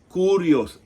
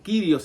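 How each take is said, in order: First: It uses the ancient Koine Greek pronunciation. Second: It uses the later, medieval-style pronunciation. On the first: This is how the word sounded in biblical Greek. The speaker calls it right. "Esa es la pronunciación correcta en el griego koinés" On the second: This form was adopted from about the Middle Ages. The speaker calls it wrong. "lo que muchos dicen Kyrios"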